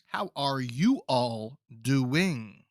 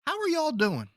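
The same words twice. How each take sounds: First: "How are you all doing?" slow, each syllable separate; every syllable sounded. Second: "How are y'all doing?" tossed off high and casual; "y'all" run together, pitched up. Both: Shown as a demonstration. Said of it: "Sound every syllable out".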